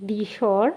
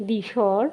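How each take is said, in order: Both takes have the same delivery.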